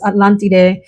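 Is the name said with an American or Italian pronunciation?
Italian. It is said with an Italian-style pronunciation.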